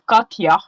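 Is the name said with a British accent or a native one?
native. It is said the way her home country says it.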